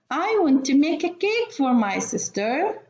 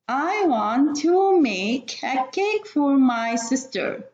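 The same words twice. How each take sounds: First: The sentence is read at a faster pace. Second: The sentence is read at a slower pace.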